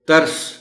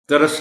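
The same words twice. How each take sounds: First: The middle consonant has no vowel after it. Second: A vowel is inserted after the middle consonant. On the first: The speaker calls it right. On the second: The speaker calls it wrong. "तरस नहीं"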